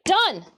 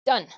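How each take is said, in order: First: Louder, higher triumphant cry. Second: Said in the usual way. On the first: Real, not acted. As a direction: announce it like a victory. Finishing a step, triumphant.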